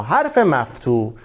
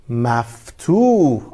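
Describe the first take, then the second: First: Said in the usual way. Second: "مفتوح" stretched very slowly, falling at the end; slow new word. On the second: Shown as a demonstration. Teacher introduces the new term to the children, slowly. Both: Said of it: "دقت کنین".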